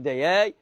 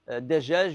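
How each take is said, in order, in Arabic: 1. الحرف الأوسط صوت y. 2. الحرف الأوسط صوت j.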